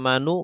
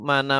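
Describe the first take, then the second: First: The word ends in a u vowel. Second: The word ends in an a vowel. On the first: "tidak manu"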